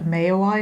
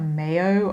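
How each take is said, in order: First: The name ends with an 'oy' sound. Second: The name ends with an 'oh' sound. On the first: The speaker calls it right. "the plant is actually called a Mayoi" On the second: The speaker calls it wrong. "not a Mayo"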